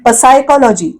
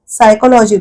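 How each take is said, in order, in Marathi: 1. हा शब्द 'p' आवाजाने सुरू होतो. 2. हा शब्द 's' आवाजाने सुरू होतो. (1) "पसायकॉलॉजी असं आपण नाही म्हणत" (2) "स पासून सायकोलॉजी"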